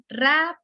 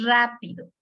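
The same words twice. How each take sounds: First: "Rápido" broken after a strong, higher RÁ; teacher counting out the syllables of "Rápido"; syllable-by-syllable demonstration. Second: Said in the usual way. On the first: Shown as a demonstration. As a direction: sound out "Rápido", RÁ held apart from pido. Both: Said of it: "¿Cuántas sílabas tiene?".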